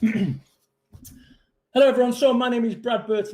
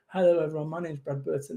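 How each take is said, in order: First: It is said slowly with deliberate pauses. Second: It is said quickly without deliberate pauses. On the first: The speaker calls it right. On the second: The speaker calls it wrong.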